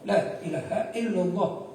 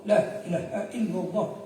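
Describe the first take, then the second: No difference in how they are said.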